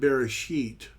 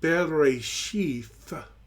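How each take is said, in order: First: The word ends in a plain t sound. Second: The word ends in a breathy th sound. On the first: This is the modern pronunciation. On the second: This is the ancient pronunciation.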